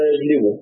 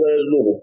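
First: The middle vowel is an 'i' sound. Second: The middle vowel is a 'u' sound. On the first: "تقول ضرب يضرب، جلب يجلب" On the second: "نصر ينصر، جلب يجلب"

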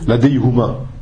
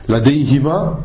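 First: The vowel after the h is u. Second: The vowel after the h is i. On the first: "Normalement, c'est la deihuma" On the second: "pour la liaison entre le ya et le ha, on le met une kasra"

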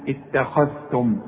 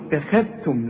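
First: The kh sound is heavy and full. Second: The kh sound is light and thin. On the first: The speaker calls it right. "كل خاء مفتوحة خاء" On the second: The speaker calls it wrong. "اوعى تقول لي اتخذتم"

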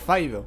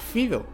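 First: The first vowel sounds like 'eye'. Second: The first vowel sounds like 'ee'. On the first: The speaker calls it right. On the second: The speaker calls it wrong.

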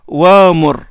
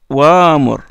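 Both takes have the same delivery.

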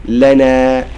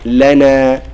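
No difference in how they are said.

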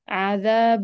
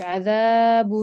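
First: The long vowel is held about two beats. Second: The long vowel is stretched to about three beats. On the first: The speaker calls it right. "عذاب بس" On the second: The speaker calls it wrong. "بتزيدي في المد كأنه ثلاثة"

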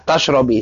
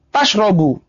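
First: The word ends with an i vowel. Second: The word ends with a u vowel. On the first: "tadi yang dia apa di kasrah ya" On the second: "kalau dibaca dhammah"

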